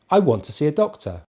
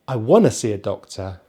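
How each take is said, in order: First: 'Want to' is said as two full words. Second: 'Want to' is reduced to 'wanna', said faster. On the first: This is the normal way of speaking. "that's just a normal way of speaking" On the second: This is a faster, more informal way of speaking. "if we want to speak really fast in maybe a, a more informal way, ... we can say wanna"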